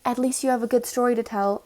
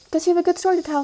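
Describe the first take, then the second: First: Said in the usual way. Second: Higher, louder mocking echo; mocking quote. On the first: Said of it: "or she was like". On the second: Storyteller mimics the unhelpful neighbour, mocking and raised. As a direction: throw the words back in a raised, incredulous imitation.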